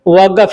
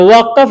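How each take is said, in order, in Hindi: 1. बीच का व्यंजन g की आवाज़ है। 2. बीच का व्यंजन एक गहरी q आवाज़ है। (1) "लेकिन बोलेंगे वक़्फ़" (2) "वक़्फ़ लिखेंगे"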